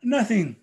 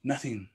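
First: Laughing demo. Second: Dropping to near nothing; silent demo. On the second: Storyteller showing the silenced flutes, hushed. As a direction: let the word fall away softly. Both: Shown as a demonstration. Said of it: "it would sound like this".

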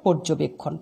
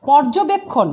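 First: পর্যবেক্ষণ as "porjobekkhon"; closed "o" in first syllable of পর্যবেক্ষণ; correct spoken vowel. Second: পর্যবেক্ষণ as "pawrjobekkhon"; as-written vowel. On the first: Teacher models pronunciation, পর্যবেক্ষণ with closed "o". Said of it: "উচ্চারণ হবে". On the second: Teacher reads the written word, পর্যবেক্ষণ with open "aw". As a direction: open "aw" starting পর্যবেক্ষণ after the p. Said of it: "শব্দটার". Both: Shown as a demonstration.

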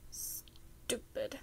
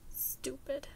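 First: Whispered under the breath; muttered. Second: Breathy whisper to oneself. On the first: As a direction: mutter it to yourself in frustration. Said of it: "he muttered to himself". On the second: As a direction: hiss it quietly at yourself. Repeats self-insult, whispering. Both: A narrator's reading.

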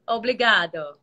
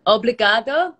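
First: "Obrigado" said firmly, with the tune falling at the end; Portuguese thank-you. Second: "Obrigado" said high and loud, with a bright questioning rise at the end; "Obrigado" called out high and loud with an upward tune; Portuguese thank-you. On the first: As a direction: settle "Obrigado" down with a confident falling finish. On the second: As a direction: try out "Obrigado" loudly, ending with a rising lilt as if asking. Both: Shown as a demonstration. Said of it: "can I say something in Portuguese?".

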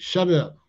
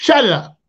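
First: Said in the usual way. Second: Barked stickup order, higher and louder; sudden shout. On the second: Retold or imitated. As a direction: yell it like you're robbing him. Stickup demand.

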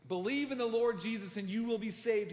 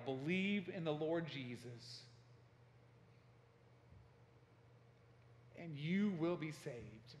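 First: Loud, higher imitated yell; retold yelling. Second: Retold yell. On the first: Harper yelling from the water, loud retold shout. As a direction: raise it into a forceful cry. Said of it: "and he's yelling this". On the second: Harper in the water changes his battle cry, slow retold yell. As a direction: stretch the retold cry out slowly. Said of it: "he began to yell".

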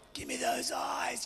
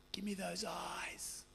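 First: A voiceless whisper, intimate. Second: Much softer and slow, almost breathed. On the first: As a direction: whisper it as a secret to the crowd. Preacher repeats request. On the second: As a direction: draw them in, hushed and slow. Preacher asks for tender gaze. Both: Acted.

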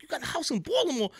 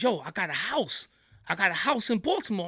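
First: Surprised disbelief. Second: Said in the usual way. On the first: Retold or imitated. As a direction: pitch jumps way up on the question. Repeats friend's words in disbelief.

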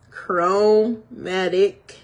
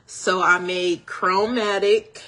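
First: "chromatic" stretched very slowly and louder; drawn-out emphasis. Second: Said in the usual way. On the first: Real, not acted. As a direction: savor the word "chromatic", dragging it out.

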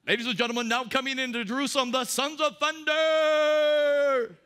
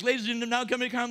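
First: MMA ring announcer. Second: Quick, louder throwaway announcer intro; rushed mock announcer. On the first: Retold or imitated. Pastor introducing the apostles as fighters, booming ring announcer. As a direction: stretch out the sons of thunder like a ring intro. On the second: Pastor mocking the nice-guy version, hurried mock announcer. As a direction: rattle off a hasty ring intro, half-hearted. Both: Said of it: "It sounds like an M M A thing".

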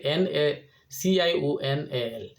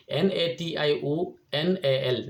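First: Slow letter by letter N A C I O N A L; spelling out. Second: Slow letter by letter N A T I O N A L; spelling out. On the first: Vlogger spelling the Portuguese word for viewers, slow letter by letter. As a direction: spell each letter out slowly, stressing the C. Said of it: "Portuguese ভাষায় লিখবে". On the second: Vlogger spelling the English word for viewers, slow letter by letter. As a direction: spell each letter out slowly for learners. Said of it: "ইংরেজিতে কীভাবে লিখি". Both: Shown as a demonstration.

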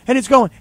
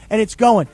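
First: "going" pushed louder and higher; the ball still carrying; mock building call. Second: Said in the usual way. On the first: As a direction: lift it like a play-by-play call.

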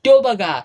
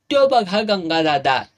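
First: Put-on high, loud kids' yell; shrill children's cry of discovery; children shouting. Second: Said in the usual way. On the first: A narrator's reading. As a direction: shriek it out like excited boys. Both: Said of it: "बारकी पोरं वराडली".

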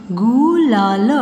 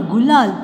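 First: गुलाल drawn out sound by sound; syllable by syllable. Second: Said in the usual way. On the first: Shown as a demonstration. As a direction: stretch each part of गुलाल. (गुलाल को तोड़-तोड़ कर) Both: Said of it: "sound pronounce करके देख लीजिए".

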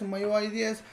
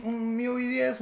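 First: "miui" said as my-you-eye; English-style MIUI. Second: "miui" said as mee-oo-ee; Spanish-style MIUI. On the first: Co-host giving both names, "miui" as my-you-eye. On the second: Co-host giving both names, "miui" as mee-oo-ee. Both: Shown as a demonstration. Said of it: "¿se, se pronuncia miui o miui?".

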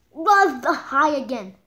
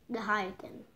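First: Said in the usual way. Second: Soft muttered echo; quiet repeat. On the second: Shown as a demonstration. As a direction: repeat it under your breath.

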